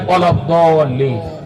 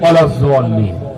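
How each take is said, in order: First: The key consonant is pronounced as a d sound. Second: The key consonant is pronounced as a z sound. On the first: "একটা বলছে দল্লিন" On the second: "আর একটা বলছে জল্লিন"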